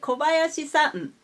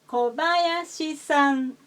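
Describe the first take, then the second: First: The pitch drops partway through the name. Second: The pitch stays flat across the whole name. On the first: The speaker calls it wrong. "We don't say Kobayashi-san. We don't say that" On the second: The speaker calls it right. "should be read with a flat style"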